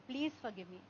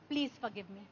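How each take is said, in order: First: It is said in a soft, humble tone. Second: It is said in a soft, humble tone.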